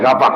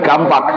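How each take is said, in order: First: The word has no m sound before p. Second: The word has an m sound before p. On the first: This is the standard Indonesian form. "Itu bahasa Indonesia kapak" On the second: This is the Betawi dialect form. "Kalau bahasa Betawi kampak"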